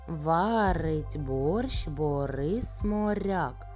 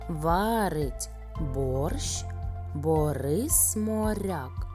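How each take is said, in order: First: The phrase is spoken at a fast pace. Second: The phrase is spoken at a moderate pace.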